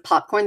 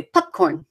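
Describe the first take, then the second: First: Said in the usual way. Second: "popcorn" said like "pupcorn"; Maine vowel. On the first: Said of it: "instead of popcorn, they say". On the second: Shown as a demonstration. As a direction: shorten the first vowel of "popcorn" to "pup". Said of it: "they say things like".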